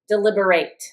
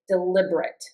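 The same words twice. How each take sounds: First: The final syllable is a full "ate" sound. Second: The final syllable is a reduced "it" sound. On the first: It is used as a verb. "when we're using it as a verb, we're going to say ate" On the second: It is used as an adjective. "when we use it as an adjective, we're going to say it"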